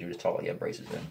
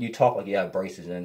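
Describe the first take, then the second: First: Quick breathy whispered tease; girlfriend's teasing. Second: Said in the usual way. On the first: Retold or imitated. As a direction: rush it out in a hushed tease. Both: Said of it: "That's what my girlfriend does".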